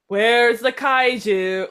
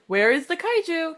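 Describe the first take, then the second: First: It is said sarcastically, not as a question. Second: It is said as a real, questioning inquiry. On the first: The speaker is fed up, not really asking. "very much not a question ... he sounds very sarcastic" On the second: The speaker really wants to know the answer. "He's not like, ... in a questioning intern"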